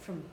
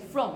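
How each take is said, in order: First: The word is said in its weak, reduced form. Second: The word is said in its strong, full form. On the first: The speaker calls it right. "you say from" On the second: The speaker calls it wrong. "You don't say from"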